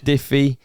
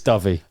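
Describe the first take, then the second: First: The first vowel sounds like the vowel in 'if'. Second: The first vowel sounds like the vowel in 'love'. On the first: The speaker calls it wrong. "It's not diffy" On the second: The speaker calls it right. "It's dovey"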